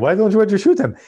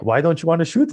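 First: Put-on high-pitched Chechen mobster accent; Chechen-accented question in a raised voice. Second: Said in the usual way. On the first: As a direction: imitate a polite Chechen mobster, pitched well up. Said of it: "he, he has this accent". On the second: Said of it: "he has this accent".

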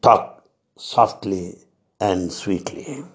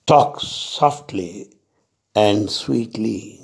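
First: Slow, hushed and gentle; slow tender quote, trailing quiet; soft and sweet. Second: Slow, gentle quote of the master's advice; slow, tender reminder; soft and sweet. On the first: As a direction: let it fade softly as a loving reminder. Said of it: "let's remind every time what Baba said". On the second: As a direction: ease the words out slowly and kindly. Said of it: "he said". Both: Retold or imitated.

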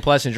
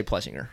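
First: "Plessinger" as "Plessin-jer"; soft-G pronunciation. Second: "Plessinger" with a hard G, as in singer; hard-G pronunciation. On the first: Retold or imitated. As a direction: say "Plessinger" with a J sound. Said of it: "So you keep saying Plessinger". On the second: Shown as a demonstration. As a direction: say "Plessinger" without a J sound. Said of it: "I'm gonna say Plessinger".

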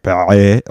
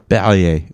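First: Perrier with a guttural French R at the back of the throat; French throaty R. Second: A light French pay-ree-AY for Perrier. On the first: Mocking French speech, throaty French Perrier. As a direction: Perrier as if gagging on the R. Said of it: "That's how you say it". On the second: Explaining his mother's French roots, says Perrier in French. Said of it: "my mother is from Morocco". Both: Shown as a demonstration.

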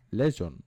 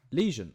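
First: "Lesion" said with a short e, as LEZH-un; "Lesion" tried as LEZH-un; mispronounced lesion. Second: "Lesion" said LEE-zhun, long ee; lesion, correct. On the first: Guessing how to say "Lesion", as LEZH-un. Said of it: "How do you pronounce it?". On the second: Checking the dictionary, "Lesion" as LEE-zhun. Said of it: "I got it right". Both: Shown as a demonstration.

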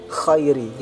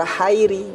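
First: Khairi with a raspy voiceless kh; correct kh. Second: Hairi with a breathy h, no rasp; kh weakened to H. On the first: Teacher giving the right form, raspy kh in khairi. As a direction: scrape the start of khairi. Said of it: "tapi kho ya". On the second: Teacher showing a mistake, smooth breathy h in hairi. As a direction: begin hairi on airy h only. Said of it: "dibaca seperti suara H". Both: Shown as a demonstration.

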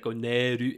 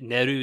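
First: Neru with a long, drawn-out e; "Neru" said as "Neeru", e held long; extended e. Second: Said in the usual way. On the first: Shown as a demonstration. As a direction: stretch the e in "Neru". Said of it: "the e is extended". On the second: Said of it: "Neru is usually".

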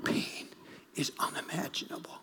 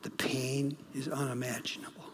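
First: Whispered, near tears; hushed, tearful whisper; choked whisper. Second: Low, soft quote of a grieving father; quietly quoting the grieving dad; quiet retelling. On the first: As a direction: breathe the words as if about to cry. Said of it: "I felt like crying". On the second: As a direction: say it softly, just reporting. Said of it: "He says". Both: Retold or imitated.

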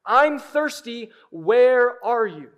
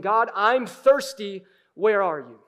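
First: Crying out. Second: Slow, louder plea to God, first take; a pleading call, held back a little; mild cry out. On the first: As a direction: let the plea break open, stretched out. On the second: Psalmist calling out to God, slow loud plea. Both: Acted. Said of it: "he's crying out to God".

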